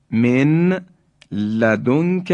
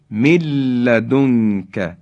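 First: من لدنک as min, pause, ladunka; unmerged nun. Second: من لدنک run together as milladunka; slow recitation, long l in من لدنک; nun dropped, doubled lam. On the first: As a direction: keep the ن of من apart from لدنک. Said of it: "نون ساکن". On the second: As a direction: merge من into لدنک with no n. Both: Shown as a demonstration.

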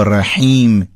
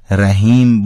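First: رحیم with a strong throat-made ح; slow Arabic-style ح in رحیم; Arabic pharyngeal ha. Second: Slow Persian-style رحیم with light h; Persian pronunciation. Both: Shown as a demonstration. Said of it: "اینا معناش خیلی متفاوته".

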